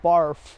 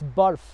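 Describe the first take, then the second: First: The word is said with English sounds. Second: The word is said with Punjabi sounds. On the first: It is the English word for vomiting. The speaker calls it wrong. "not barf" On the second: It is the Punjabi word for ice. The speaker calls it right. "the Punjabi word of the episode"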